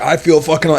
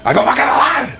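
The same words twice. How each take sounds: First: It is said in a plain, flat way. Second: It is said with intense, building energy.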